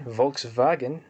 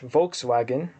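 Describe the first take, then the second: First: It is said with a German pronunciation. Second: It is said with an English pronunciation. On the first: "in German" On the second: "in English"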